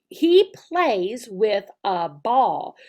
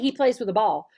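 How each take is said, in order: First: It is said slowly and precisely. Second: It is said fast and run together.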